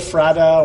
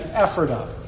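First: It is pronounced a different, non-local way. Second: It is pronounced the local Pennsylvania way. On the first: "you might say Ephrata or something else like that" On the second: "I'll use the Pennsylvania pronunciation again"

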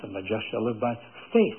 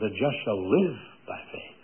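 First: The stress is on the word faith. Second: The stress is on the word live.

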